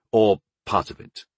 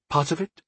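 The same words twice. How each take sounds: First: Said in the usual way. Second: "Part of it?" high with rising end; questioning echo. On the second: Acted. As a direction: query "Part of it?" back, softly puzzled and rising. Goddess echoes it as question.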